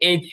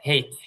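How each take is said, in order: First: It starts with a vowel, no h sound. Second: It starts with an h sound. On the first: "আমরা এটাকে এইচ বলি" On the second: "হেইচ মানে হ দিয়ে"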